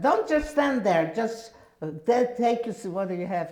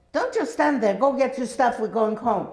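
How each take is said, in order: First: High loud yell that stumbles and fades at the end; yelling again. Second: High, loud urgent call to hurry; urgent shout. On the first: Sister yelling again at the doorstep, impatient. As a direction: shout it again, impatient, tripping over the words. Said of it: "she yelled again at the doorstep". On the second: Sister at the door shouting for her to come home, urgent. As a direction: yell at her to move, now. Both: Retold or imitated.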